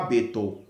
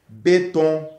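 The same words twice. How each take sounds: First: The word has a Kinyarwanda-style pronunciation. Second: The word has a standard French pronunciation. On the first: The speaker calls it wrong. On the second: The speaker calls it right.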